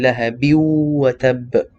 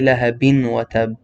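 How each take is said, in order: First: The N merges into the following 'wa'. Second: A clear N sound is said before 'wa'. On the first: The speaker calls it right. "You you merge the noon and then you say lahabi wa tab" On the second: The speaker calls it wrong. "You don't say lahabin wa tab"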